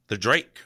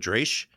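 First: The name ends with a k sound. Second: The name ends with an sh sound. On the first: This is how others say the name. "I've heard it called the Drake" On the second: This is how the speaker has always said the name. "I always called it the Dresh"

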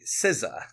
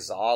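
First: The name starts with an S sound. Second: The name starts with a Z sound, no S. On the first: The speaker calls it right. "It's actually SZA" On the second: The speaker calls it wrong. "I've been calling her [name]"

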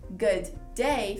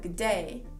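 First: The words are said separately. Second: The words are blended together.

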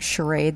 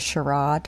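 First: The word is said in a plain, everyday way. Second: The word is said in a posh, refined way. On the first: "instead of saying charade" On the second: "when they're trying to sound sophisticated"

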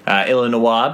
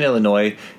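First: The name is said with a French pronunciation. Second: The name is said with an American pronunciation. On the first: "Illinois being the French pronunciation" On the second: "Illinois being how we say it"

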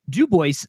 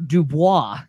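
First: The name is said with an English pronunciation. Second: The name is said with a French pronunciation. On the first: This is how the locals say the town's name. "it is pronounced Dubois" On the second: This is the original name of the trapper. "named after the French trapper"

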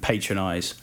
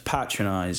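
First: It is said with an American pronunciation. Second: It is said with a British pronunciation. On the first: The speaker calls it wrong. "Spike occasionally let it slip" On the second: The speaker calls it right. "it's patronise if you're English"

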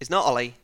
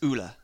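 First: The name is said the English way. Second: The name is said the Norwegian way. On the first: The speaker calls it wrong. "it's not Ole" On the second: The speaker calls it right. "It's Ulla"

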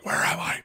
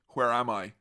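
First: It is said in an exaggerated put-on voice. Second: It is said in the speaker's ordinary voice.

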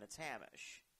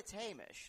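First: The name is said in an American way. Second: The name is said in a British way.

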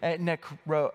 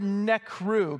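First: The word ends with an 'oh' vowel. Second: The word ends with an 'oo' vowel. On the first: The speaker calls it right. "Actually, maybe it's nekro" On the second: The speaker calls it wrong. "it's the word nekru"

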